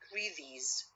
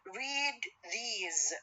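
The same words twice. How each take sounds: First: The boundary sound is assimilated to its neighbour. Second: The boundary sounds are said fully and unchanged.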